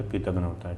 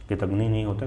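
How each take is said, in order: First: कृतघ्न with final "na", softer; correct ending. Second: कृतघ्नि with final "ni"; wrong ending. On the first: Teacher confirms the right form, कृतघ्न ending in na. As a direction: say कृतघ्न ending on a short a, softly. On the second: Teacher rules out the wrong form, कृतघ्नि ending in ni. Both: Shown as a demonstration.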